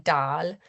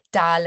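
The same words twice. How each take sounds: First: Dal with a long, drawn-out a; long vowel. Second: Dal with a short vowel. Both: Shown as a demonstration. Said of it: "reflected in the vowel length".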